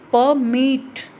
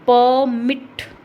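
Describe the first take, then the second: First: The stress is on the second syllable. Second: The stress is on the first syllable. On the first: It means to allow something to happen. "मिट पर क्या हो रहा है, stress ज़्यादा जा रहा है" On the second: It names an official document allowing something. "प प पर क्या हो रहा है, ज़्यादा स्ट्रेस जा रहा है"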